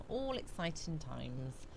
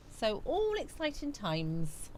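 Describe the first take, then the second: First: Repeated softly, dropping away; quiet. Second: Said in the usual way. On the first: Shown as a demonstration. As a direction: echo it under your breath.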